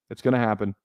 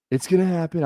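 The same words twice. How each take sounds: First: Said in the usual way. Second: Higher-pitched presidential impersonation; playful impersonation, pitched up; Donald Trump. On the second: Acted. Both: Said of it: "I like doing the Trump accent".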